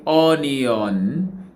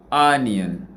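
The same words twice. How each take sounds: First: "onion" with a full, open "on" at the end; wrong full vowels. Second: "onion" ending in a weak "-yən"; correct schwa. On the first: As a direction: say "onion" with a clear, unreduced last vowel. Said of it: "We didn't say onion". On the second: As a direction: let the end of "onion" go slack to a schwa. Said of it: "we go". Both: Shown as a demonstration.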